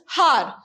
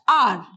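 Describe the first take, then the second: First: The word begins with an audible h sound. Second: The word begins with a vowel, h silent. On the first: The speaker calls it wrong. "we don't pronounce it as har" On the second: The speaker calls it right. "We say it as r. H will be silent here"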